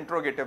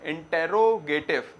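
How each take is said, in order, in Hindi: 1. 'int' और 'r' के बीच कोई स्वर सुनाई नहीं देता। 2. 'int' और 'r' के बीच एक स्वर सुनाई देता है। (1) "प्रोनाउंसिएशन में इंट्रोगेटिव बोला जाता है ज्यादातर" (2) "स्पेलिंग तो क्या है?"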